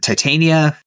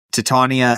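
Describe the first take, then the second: First: Titania said tie-TAY-nee-uh; alternate pronunciation. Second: Titania said tih-TAHN-ee-uh; alternate pronunciation. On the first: Host unsure of the queen's name, Titania as tie-TAY-nee-uh. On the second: Host unsure of the queen's name, Titania as tih-TAHN-ee-uh. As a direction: say Titania with short first vowel and broad "TAHN". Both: Shown as a demonstration. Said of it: "however her, her name is pronounced".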